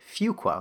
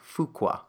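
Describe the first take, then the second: First: The first syllable sounds like the word 'few'. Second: The first syllable does not sound like 'few'. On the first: The speaker calls it right. "it's actually Fuqua, like the word few" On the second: The speaker calls it wrong. "I always used to mispronounce it. I would say like Fuqua"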